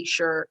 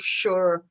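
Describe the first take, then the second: First: "sure" low with a light Irish lilt; sure, said slightly Irish, trailing low; a bit Irish sure. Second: "sure" with a light Irish lilt; sure, said slightly Irish; a bit Irish sure. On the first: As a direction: drop "sure" a touch Irish. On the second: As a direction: let "sure" slip a touch Irish. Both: Shown as a demonstration. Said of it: "I sound a bit more Irish".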